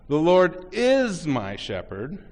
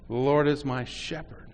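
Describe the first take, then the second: First: The word "is" is stressed. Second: The word "shepherd" is stressed.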